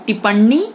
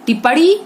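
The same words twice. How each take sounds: First: Said in the usual way. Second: टिप्पणी said as "tipadi"; wrong consonant. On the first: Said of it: "सही". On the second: Shown as a demonstration. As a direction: turn the nasal of टिप्पणी into a flapped "r". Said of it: "गलत".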